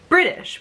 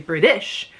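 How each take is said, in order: First: The stress falls in its usual natural place. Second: The stress is shifted to an unusual syllable. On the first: The speaker calls it right. "we say British" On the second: The speaker calls it wrong. "we don't say British"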